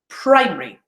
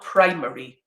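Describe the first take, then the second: First: A middle vowel sound is dropped. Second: Every syllable is fully pronounced. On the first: The speaker calls it right. "examples of elision" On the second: The speaker calls it wrong.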